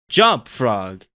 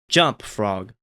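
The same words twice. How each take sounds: First: It is said very loudly. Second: It is said softly with an anxious tone.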